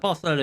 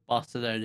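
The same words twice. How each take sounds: First: It is said with a Spanish accent. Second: It is said with an English accent.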